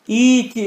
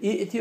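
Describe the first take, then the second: First: A long vowel with no glottal stop. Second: A glottal stop comes after the first vowel. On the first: The speaker calls it right. "İti okuman vaciptir" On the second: The speaker calls it wrong. "İ'ti okuyamaz"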